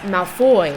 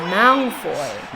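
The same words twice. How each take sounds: First: The stress is on the second syllable. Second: The stress is on the first syllable. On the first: "He emphasises the O" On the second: "the pronunciation that most people are familiar with"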